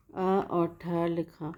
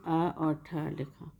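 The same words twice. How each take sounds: The two takes are said the same way.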